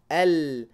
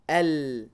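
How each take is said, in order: No difference in how they are said.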